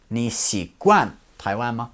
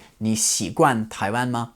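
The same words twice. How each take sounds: First: 惯 set apart and emphasised; stress on 惯. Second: Said in the usual way. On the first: Retold or imitated. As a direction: correct a mishearing, spelling out 习惯 with weight on 惯. Locals correct his mishearing, stressing 惯.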